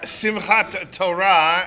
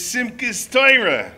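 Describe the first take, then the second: First: It is said with a Sephardic Hebrew accent. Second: It is said with a Brooklyn Ashkenazi accent.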